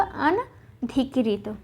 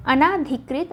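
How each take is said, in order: First: अनधिकृत slowly as an... dhi-krit; very slow अनधिकृत, no long ā; correct form, broken up. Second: अनाधिकृत with long "nā"; अनाधिकृत, second vowel long; wrong form shown. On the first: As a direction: split अनधिकृत after a short "an". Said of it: "क्या होगा?". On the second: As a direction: say अनाधिकृत as a-nā-dhi-krit. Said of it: "न होके क्या होगा". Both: Shown as a demonstration.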